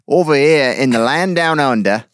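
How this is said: It is said in an Australian accent.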